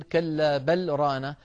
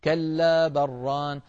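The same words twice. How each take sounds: First: A brief stop on بل with a clear lam before ران; pause on بل. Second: بل ران joined as بران with a doubled ra and no lam; merged lam into ra. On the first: Teacher demonstrating the correct pause on بل, slow. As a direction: stop short on بل, then ران. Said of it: "الموضع الرابع والأخير". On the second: Teacher showing the merged reading without the pause. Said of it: "لابد من إدغام اللام في الراء فنقول". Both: Shown as a demonstration.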